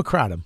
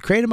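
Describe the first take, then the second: First: Kratom said as CRAH-dum; second option, "ah". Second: Kratom said as CRAY-dum; first option, "ay". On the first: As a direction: say Kratom with "ah" in the first syllable. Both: Shown as a demonstration. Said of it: "Is it Kratom or Kratom?".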